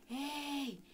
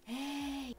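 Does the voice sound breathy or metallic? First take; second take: breathy; breathy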